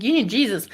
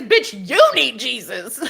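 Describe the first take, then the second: First: Said in the usual way. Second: Slow, laughing mock retort; laughing comeback. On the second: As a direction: toss it back with a giggle. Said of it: "the first thing I say is".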